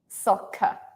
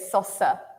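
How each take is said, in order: First: The middle consonant is a k sound. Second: The middle consonant is an s sound. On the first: The speaker calls it right. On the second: The speaker calls it wrong.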